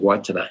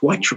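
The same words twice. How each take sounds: First: It is said with Māori vowels and rhythm. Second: It is said with anglicized English vowels. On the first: "when I said I'm going to Waitara" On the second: "oh, God, it's Waitara, mate"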